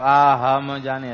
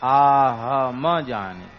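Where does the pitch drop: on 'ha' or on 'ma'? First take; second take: ha; ma. First: The pitch drops on 'ha' instead. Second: The svarita pitch accent falls on 'ma'. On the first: The speaker calls it wrong. "प्रमाद करेंगे तो ... ऐसे बोल देंगे, गलत हो जाएगा" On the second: The speaker calls it right. "मकार के ऊपर स्वरित स्वर है"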